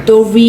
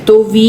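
The two takes are said the same way.

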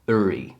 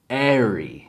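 First: The ending is said with a British accent. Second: The ending is said with an American accent. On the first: "Brytyjczycy traktują to jako airy" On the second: "po amerykańsku airy"

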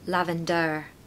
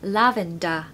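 First: The final syllable has a full vowel. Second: The final syllable is a weak schwa. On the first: The speaker calls it wrong. "not lavender" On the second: The speaker calls it right. "there's a schwa on the end"

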